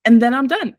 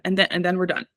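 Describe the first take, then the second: First: And then I'm DONE, said higher with the word done pressed hard; firm final word. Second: Said in the usual way. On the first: Pretend. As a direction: land hard on done to close it off. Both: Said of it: "I told myself".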